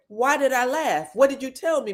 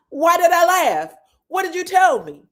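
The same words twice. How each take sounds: First: Said in the usual way. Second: High, loud repeat of the question; retold loud demand. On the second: Retelling Martell confronting Maurice, loud mock demand. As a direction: throw the question back much louder.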